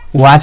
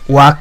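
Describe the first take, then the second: First: The word ends with a 'ch' sound. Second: The word ends with a 'k' sound. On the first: The speaker calls it right. "वॉच बोलते हैं" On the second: The speaker calls it wrong. "वाक तो नहीं बोलते हैं"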